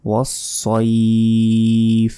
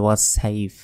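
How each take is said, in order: First: ওয়াসসাইফ as "was-soeeef", heavy s, very long ee; slow full-mouthed ওয়াসসাইফ; correct pronunciation. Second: ওয়াসসাইফ as quick "was-saif", thin s; short, unstretched ending on ওয়াসসাইফ; everyday light "saif" in ওয়াসসাইফ; wrong pronunciation. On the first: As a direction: stretch the ee before f in ওয়াসসাইফ. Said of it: "ওয়াসসাইফ নয়". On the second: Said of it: "অনেকে এখানে ভুল বলি". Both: Shown as a demonstration.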